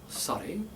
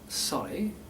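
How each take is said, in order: No difference in how they are said.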